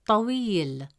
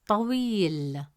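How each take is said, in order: Both takes have the same delivery.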